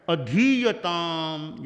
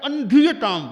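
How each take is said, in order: First: "अधीयताम" very slow, pure a at the start; slow "अधीयताम" without any n before धी; no nasal after a. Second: "अंधीयताम" opening an-, with an n; loud "अंधीयताम", n before the stressed धी; added nasal. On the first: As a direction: draw out धी in अधीयताम. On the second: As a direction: punch अंधीयताम louder, nasal first syllable. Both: Shown as a demonstration. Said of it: "ए पर बिंदु लगा दिया".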